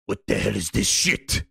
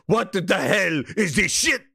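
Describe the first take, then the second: First: Very low mock-menacing growl, rising at the end; Herman impression. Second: Fuller low voice, less deep, rising in disbelief; Herman impression. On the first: Herman coming in here, very low disgusted voice. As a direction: play the boss appalled under his breath, way down low. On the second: Herman reacting to what he finds here, lowered incredulous voice. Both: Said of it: "he would come in here and go".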